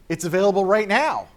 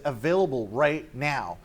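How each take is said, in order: First: Louder, higher big reveal; dramatic announcement. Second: Said in the usual way. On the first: Retold or imitated. Sega exec announcing launch on stage, loud reveal. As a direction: drop the bombshell on the crowd.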